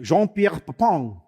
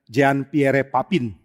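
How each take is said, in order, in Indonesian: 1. Papin berakhir dengan vokal sengau, tidak ada n. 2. Huruf n di akhir Papin jelas diucapkan.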